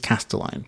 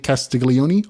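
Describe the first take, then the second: First: The middle sounds like 'stel'. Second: The middle sounds like 'stig-lee'. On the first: The speaker calls it right. "but it is Castelline" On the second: The speaker calls it wrong. "I say Castiglione all the time"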